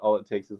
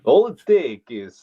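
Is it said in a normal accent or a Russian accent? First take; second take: normal; Russian. First: It is said in the speaker's normal accent. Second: It is said in a put-on Russian accent.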